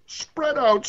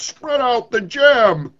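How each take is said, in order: First: Higher, loud command spread out; sun's command. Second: Sun's command. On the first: The sun ordering the poet, sharp higher command. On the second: The sun ordering the poet to set out jam, slow booming command. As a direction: spread out the jam, slow and much louder. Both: Acted. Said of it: "he spoke deep bass".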